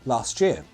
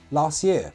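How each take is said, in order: First: The T and Y join into a ch sound. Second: The T is dropped before year. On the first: "can sound like" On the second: "we can also elide that last T"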